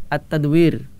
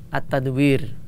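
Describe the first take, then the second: The two takes are said the same way.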